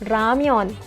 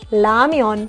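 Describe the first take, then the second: First: The word begins with an R sound. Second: The word begins with an L sound. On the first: "من میخونمش رمیان" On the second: "میتونم بخونمش لامیان"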